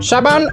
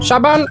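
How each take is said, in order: The two takes are said the same way.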